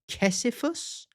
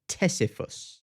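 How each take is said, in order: First: The word begins with a K sound. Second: The word begins with a T sound. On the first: "Or is it a silent T?" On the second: "it's a silent C"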